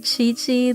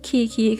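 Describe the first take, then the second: First: Each syllable begins with a ch sound. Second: Each syllable begins with a hard k sound. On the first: The speaker calls it right. "that's alright. It's somewhat like it" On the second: The speaker calls it wrong. "it is the one that is nothing like how you say it"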